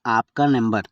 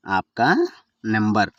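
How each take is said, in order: First: Said in the usual way. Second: ఆప్కా stretched and rising, pause, then number; word by word. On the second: Shown as a demonstration. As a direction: split ఆప్కా from number for learners. Teacher repeats phrase word by word. (పదం పదంగా విడదీసి)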